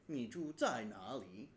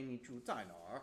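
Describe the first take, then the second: First: It is said in standard Mandarin, ending 'na li'. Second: It is said in a Beijing accent, ending 'nar'.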